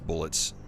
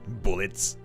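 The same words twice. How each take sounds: First: The word is pronounced in a plain, ordinary way. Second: The word is pronounced in an exaggerated, goofy way.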